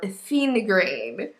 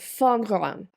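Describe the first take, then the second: First: The word is pronounced with English-style sounds. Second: The word is pronounced with French-style sounds. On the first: The speaker calls it wrong. "I was not pronouncing it correctly" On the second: The speaker calls it right. "it's pronounced more like fingran"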